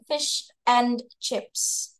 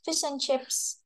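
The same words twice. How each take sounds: First: Slow fish and chips, and fully said; careful fish and chips; full fish and chips. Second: Fish and chips with and shrunk to n, soft; reduced and. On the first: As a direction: spell out and, slowly. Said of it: "nyebutnya biasa fish and chips". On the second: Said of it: "and doang". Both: Shown as a demonstration.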